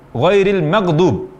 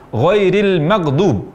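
Both takes have the same delivery.

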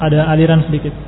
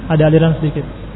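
Both takes have the same delivery.

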